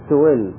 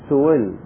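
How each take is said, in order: First: The glottal stop is softened toward a 'y' sound. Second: The glottal stop is softened toward a 'w' sound. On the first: "لا هي همزة ولا هي ياء" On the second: "بين الهمزة وبين الواو"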